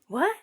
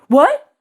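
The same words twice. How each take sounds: First: It is said slowly and blankly, sounding dim. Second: It is said sharply, sounding angry. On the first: The listener seems not very clever. "the speaker might think you're a little stupid" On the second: The listener is annoyed with the speaker. "Whoa, don't get mad at me"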